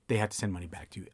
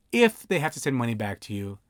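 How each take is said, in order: First: Said in the usual way. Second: If said with clear weight, the rest of the line even; stress on if. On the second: Shown as a demonstration. Notary stressing If so clients know refunds may not come. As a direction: lean on If as the key condition. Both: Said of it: "I always emphasize the word if".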